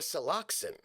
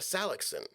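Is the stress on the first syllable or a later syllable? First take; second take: later syllable; first syllable. First: The stress falls on a later syllable. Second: The stress falls on the first syllable. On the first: "what if you're a Saloxin" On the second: "it is typical in English to put the emphasis on the first syllable"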